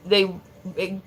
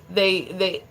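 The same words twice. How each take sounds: The two takes are said the same way.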